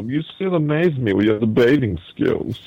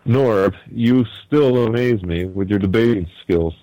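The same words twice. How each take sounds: First: A hint of a smug villain; movie villain. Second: Said in the usual way. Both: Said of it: "he sounds kinda like a villain".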